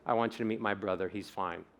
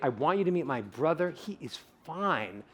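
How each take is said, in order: First: Low, soft and rushed, no feeling; flat mumble. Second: Mean every word of it; feeling it. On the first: Speaker demos a flat delivery to the amygdala. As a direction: toss it off flat and quick. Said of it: "So if I say". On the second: Speaker demos an emotional delivery for the audience. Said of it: "But if I say". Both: Shown as a demonstration.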